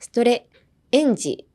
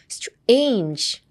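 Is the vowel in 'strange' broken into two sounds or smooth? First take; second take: broken; smooth. First: The vowel is stretched into two separate sounds. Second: The vowel is said as one smooth glide. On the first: The speaker calls it wrong. "ストレエンジになりがち" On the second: The speaker calls it right. "ストレンジですね"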